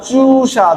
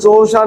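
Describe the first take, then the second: First: The first vowel is a long oo. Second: The first vowel is not a long oo. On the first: The speaker calls it right. "চু। লম্বা।" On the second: The speaker calls it wrong. "না"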